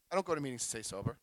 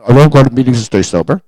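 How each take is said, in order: First: Fast, much softer, tossed off under the breath; half-hidden quiet confession; muttered aside. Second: Louder, declared for the whole room. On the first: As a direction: slip it in quickly and quietly. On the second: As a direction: proclaim it boldly so the recording catches it. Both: Shown as a demonstration. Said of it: "I'll say that out loud".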